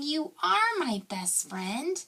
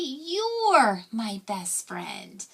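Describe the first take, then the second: First: You and are are said as two full words. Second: You and are merge into one short syllable. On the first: "instead of saying you are my best friend" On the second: "we're going to say you're my best friend"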